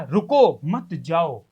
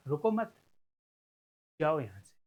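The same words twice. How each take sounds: First: Loud रुको, brief break, lower मत जाओ; stop, don't go. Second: Soft joined रुको मत, long pause, low जाओ यहां से; don't stop, go. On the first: Teacher offering one reading of Vikas's words, break after रुको. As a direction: hit रुको firmly, then separate मत जाओ. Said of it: "क्या तुम ये निकालोगे कि". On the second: Teacher offering the other reading of Vikas's words, break after मत. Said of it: "या फिर विकास ने ये कहा". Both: Shown as a demonstration.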